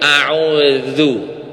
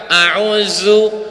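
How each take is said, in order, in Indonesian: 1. Konsonan di tengah diucapkan halus, tanpa desis. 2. Konsonan di tengah diucapkan dengan desis. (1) "dihaluskan jadi a'udzu" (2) "berdesis dia"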